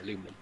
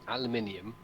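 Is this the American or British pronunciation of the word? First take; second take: American; British. First: It has four syllables, ending in -inum. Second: It has five syllables, ending in -inium. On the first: This is the form the discoverer chose. "named it aluminum" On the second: This is the form the English scientists chose. "as we call it"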